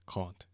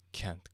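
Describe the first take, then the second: First: "can't" with an open back British "ah"; British pronunciation. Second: "Can't" with a front American "æ" vowel; American pronunciation. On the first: Setting two accents side by side, British "can't". Second take contrasts British with American. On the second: Setting two accents side by side, American "Can't". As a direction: say "Can't" as Americans do, rhyming with "ant". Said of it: "That was an American can right there". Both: Shown as a demonstration.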